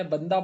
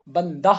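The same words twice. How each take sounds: First: Said in the usual way. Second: بندہ ending in an audible breathed h; over-pronounce the last h of بندہ as "bandah"; wrongly sounded h. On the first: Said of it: "ہا بہت زیادہ ظاہر تو نہیں ہے". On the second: Shown as a demonstration. Teacher shows students what nobody says, بندہ with a sounded final h. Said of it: "کوئی تو نہیں بولتا".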